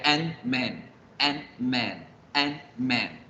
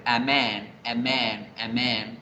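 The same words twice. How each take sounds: First: "and man" as two blocks, a stop after the n; an man atascado. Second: "amen" run together as one smooth word; a man seguido. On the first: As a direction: break between an and man in "and man". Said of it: "Se genera un atascamiento de la fluidez". ("and man" trabado, con pausa entre las dos consonantes) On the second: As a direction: link the a straight into men in "amen". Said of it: "Entonces yo no diría seguido las palabras". ("amen" seguido y fluido, sin pausa) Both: Shown as a demonstration.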